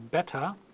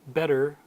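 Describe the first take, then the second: First: It is said in a British accent. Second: It is said in an American accent. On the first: "in proper British English" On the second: "Or in American English"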